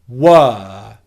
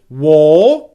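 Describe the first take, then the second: First: The vowel is a steady, held 'er' sound. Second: The vowel sounds like 'or'. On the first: The speaker calls it right. "very simply hold the er vowel sound. Like this" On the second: The speaker calls it wrong. "Don't make an or sound"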